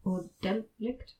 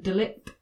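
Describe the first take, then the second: First: Delict drawn out with a questioning rise; alternative pronunciation. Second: Delict with the first syllable as an open "del"; Latin word pronunciation. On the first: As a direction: try delict slowly, as if unsure. Offers alternative pronunciation, unsure. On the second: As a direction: try delict as DEL-ict. Asks which pronunciation is right. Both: Shown as a demonstration.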